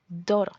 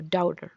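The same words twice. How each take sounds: First: Daughter with a tapped t, rising; daughter, first version. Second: Daughter with a full d and a falling end; daughter, second version. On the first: Teacher giving one way to say daughter. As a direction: say daughter like doro with a flap. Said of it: "o daughter". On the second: Teacher offering the alternative daughter pronunciation. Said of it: "dependiendo de cómo lo quieran pronunciar". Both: Shown as a demonstration.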